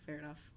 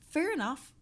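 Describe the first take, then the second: First: Dropped to a murmur; quiet fair enough. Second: Loud and high; loud fair enough. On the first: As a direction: say it softly under breath. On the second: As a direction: belt it out. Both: Acted. Repeats phrase, each take softer.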